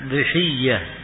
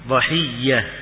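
First: The first vowel is i. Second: The first vowel is a.

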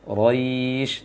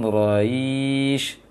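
First: A short i follows the r directly. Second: An extra ya sound lengthens the vowel after r. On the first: The speaker calls it right. "setelah ro dikutir dengan suara i langsung sampai terakhir" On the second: The speaker calls it wrong. "jangan Quraisy"

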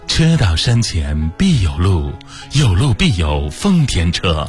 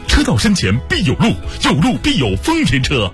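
First: It is read slowly, with a dignified manner. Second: It is read with lively, dynamic energy. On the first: The car feels noble and prestigious. "尊贵怎么配？我想啊，那慢一点吧。" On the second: The car feels sporty and dynamic. "你动感的配一下。我说啊，行吧。"

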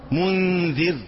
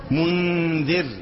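The two takes are said the same way.

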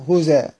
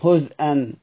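First: The hamza is dropped and its vowel moves back. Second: The hamza is kept as a glottal stop. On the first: The reader stops on the word. "بالنقل مع حذف الهمزة" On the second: The word is joined to what follows. "في الوصل بيقرأ عادي زي خلف العاشر"

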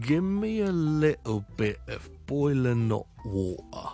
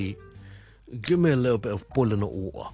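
First: The sentence is spoken more slowly than before. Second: The sentence is spoken at normal, faster speed.

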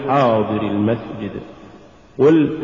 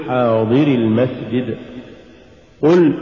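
Both takes have the same delivery.

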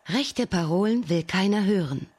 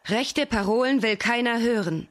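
First: It is said in a calm, plain way. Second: It is said a little more boldly.

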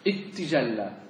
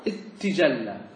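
First: The two t sounds merge into one doubled t. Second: The same.

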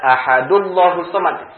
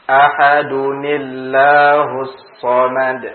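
First: Ahadu runs straight into llahus without 'ni'. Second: A linking 'ni' sound joins ahadu and llahus. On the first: The word ends in a plain dhammah, not a tanwin. The speaker calls it wrong. "Tidak ahadullahus samad. Salah" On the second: The word ends in a tanwin and is joined on. The speaker calls it right.

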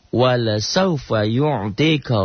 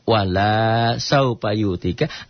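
First: The vowel after the l is short. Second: The vowel after the l is long. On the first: Your Lord will surely give to you. The speaker calls it right. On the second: Your Lord will not give to you. The speaker calls it wrong.

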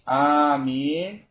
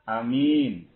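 First: The first vowel is held long. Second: The first vowel is kept short. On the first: "Mat itu dipanjang" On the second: "kasr itu pendek"

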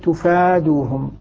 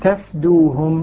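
First: The first vowel is rounded and the next vowel long. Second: The first vowel is open and the next vowel short. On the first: This is how certain named readers recite it. "بضم التاء والمد الذي بعد الفاء" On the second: This is how the remaining readers recite it. "فضد الضمة الفتحة وضد المد القصر"

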